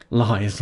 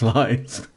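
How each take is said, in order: First: Said in the usual way. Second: Laughing. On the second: Real, not acted. Laughing off the denial.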